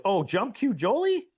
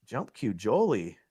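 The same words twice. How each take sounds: First: High, rising disbelief on Jolie's name; shocked he grabbed the jump cue; surprised. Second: Said in the usual way. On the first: Real, not acted. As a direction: pitch leaps up in amazement.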